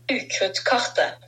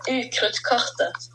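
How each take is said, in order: First: Careful Norwegian pronunciation; "Utkruttkartet" said the Norwegian way, with a southern accent; Norwegian word said. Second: Repeated slowly and clearly for listeners; "Utkruttkartet" said again, clearly and deliberately; Norwegian word repeated. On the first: Host teaching listeners the Norwegian map name, said carefully. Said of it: "starting with the Marauders map". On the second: Host repeating the word after the line cut out, said clearly. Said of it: "What did you say? Cut out". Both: Shown as a demonstration.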